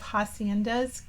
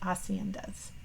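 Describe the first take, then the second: First: The word begins with an English H sound. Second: The word begins with a vowel, no H. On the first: "I still call it kind of haciendas because that's, you know, me putting my English phonetic skills onto it" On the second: "the Spanish pronunciation is haciendas without the H"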